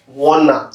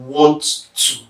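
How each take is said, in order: First: "wanna" run together as one word, no t; casual contraction. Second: "want to" as two separate words, both t's sounded; uttered completely. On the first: Teacher showing the usual habit, "wanna" run together. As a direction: blend want and to into "wanna". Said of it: "We usually say". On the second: Teacher showing full enunciation, "want to" pronounced in full. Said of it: "instead of". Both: Shown as a demonstration.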